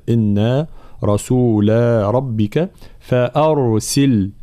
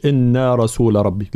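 First: Slow رسول ربك فأرسل; correct slow recitation. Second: رسول said short; wrong short madd. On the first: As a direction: recite slowly with the madd kept. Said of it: "لا". (تلاوة بطيئة صحيحة) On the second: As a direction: clip رسولا to show the error. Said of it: "ما نقولش". (رسولا بلا مد خطأً) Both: Shown as a demonstration.

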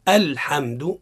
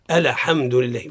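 First: "الحمد" said smoothly with no bounce; correct, no qalqala. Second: "الحمد" with a bouncing echo on the meem and dal; wrong qalqala. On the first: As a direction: keep "الحمد" smooth and even. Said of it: "والصواب هو". (الحمد من غير قلقلة) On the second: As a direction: add a bounce to the stops in "الحمد". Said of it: "قلقلته". (قلقلة خاطئة في الحمد) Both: Shown as a demonstration.

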